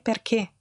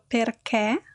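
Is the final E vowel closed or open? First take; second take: closed; open. First: The final vowel is a closed E. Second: The final vowel is an open E. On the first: It is the standard pronunciation. The speaker calls it right. "anziché perché" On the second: It reflects a regional pronunciation. The speaker calls it wrong. "io pronuncio perché molto aperto"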